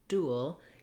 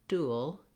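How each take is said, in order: No difference in how they are said.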